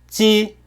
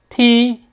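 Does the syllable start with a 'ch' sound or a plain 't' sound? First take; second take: ch; t. First: It starts with a ch-like sound: chi. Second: It starts with a plain t sound: ti. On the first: The speaker calls it right. "찌랑 치의 중간 발음이 되는 거예요" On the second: The speaker calls it wrong. "이렇게 될 것 같은데, ... 뭔가 이상하지"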